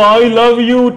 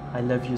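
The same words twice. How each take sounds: First: It is said harshly in an angry style. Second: It is said warmly with real feeling. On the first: The speaker calls it wrong. "Very, very angry style" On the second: The speaker calls it right. "see this, I'm just acting for you"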